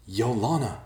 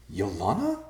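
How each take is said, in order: First: Raised, alarmed yell of a name; yelling out for a sister. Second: Puzzled question, rising at the end; confused, disbelieving, lifting upward. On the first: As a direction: call the name out high, falling away. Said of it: "Ben yelled". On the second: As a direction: say the name as a bewildered question. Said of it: "Ben said in confusion". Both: A narrator's reading.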